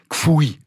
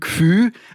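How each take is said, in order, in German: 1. Das Wort endet auf einen 'ui'-Diphthong. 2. Das Wort endet auf einen einfachen 'ü'-Vokal. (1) "Münchner hat Fui, Zfui, Gfui" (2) "Der Wiener hat Fü, Tfü, Gfü"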